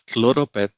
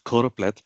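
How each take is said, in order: First: It starts with 'klo' and drops the second L. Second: It starts with 'ko' and keeps the 'pleth' ending. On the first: The speaker calls it wrong. "many of us end up pronouncing this as" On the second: The speaker calls it right. "instead of"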